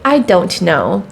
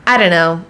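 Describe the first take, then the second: First: Each word is said fully and separately. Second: The words are run together into a short form. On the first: The speaker calls it wrong. "Native English speakers don't say" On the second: The speaker calls it right. "They say"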